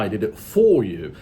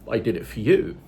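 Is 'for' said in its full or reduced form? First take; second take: full; reduced. First: The word 'for' has a full, stressed vowel. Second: The word 'for' has a weak, reduced vowel. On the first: The speaker calls it wrong. "You don't say it all the time" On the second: The speaker calls it right. "Like you say"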